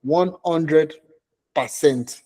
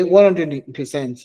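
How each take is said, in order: First: Said in the usual way. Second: Slow, drawn-out Nigerian accent. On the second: Shown as a demonstration. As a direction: say it like a Nigerian uncle. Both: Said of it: "Let me use my Nigerian accent".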